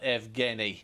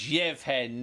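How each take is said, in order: First: The name is said in a non-Ukrainian form. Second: The name is said in its Ukrainian form. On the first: The speaker calls it wrong. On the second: The speaker calls it right. "these are Ukrainian pronunciations, so it's"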